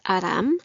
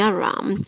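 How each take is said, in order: First: The r sound is said the Korean way. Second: The r sound is said the English way. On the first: This is how friends and family in Korea say it. "originally it is Aram" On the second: This is how friends in other countries say it. "my friends in all other countries, including the United States, call me Aram"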